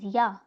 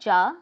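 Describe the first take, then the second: First: The word begins with a Y sound. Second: The word begins with a J sound. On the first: The speaker calls it right. "J has a sound of Y" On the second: The speaker calls it wrong. "this is not Ja"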